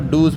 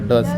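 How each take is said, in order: First: The vowel is long, like in shoes. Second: The vowel is short, like in bus. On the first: The speaker calls it wrong. "इसको डूज पढ़ते हैं बहुत लोग, गलत होता है" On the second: The speaker calls it right. "डस पढ़ते हैं"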